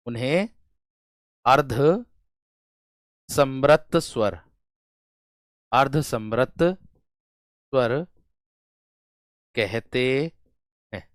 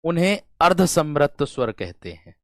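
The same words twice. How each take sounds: First: अर्धसमृत स्वर drawn out slowly, syllable by syllable; teacher dictating अर्धसमृत स्वर very slowly; slow dictation. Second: Said in the usual way. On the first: Shown as a demonstration. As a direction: spell out अर्धसमृत स्वर slowly so students can write it.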